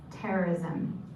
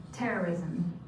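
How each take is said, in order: Both takes have the same delivery.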